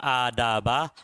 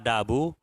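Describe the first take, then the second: First: The word ends in the vowel a. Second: The word ends in the vowel u. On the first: It is the object of an omitted 'read'. "boleh dibaca adaba" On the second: It is the predicate of an omitted 'this'. "Boleh dibaca adabu"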